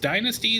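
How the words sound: The word is said with an American pronunciation. "like the American pronunciation"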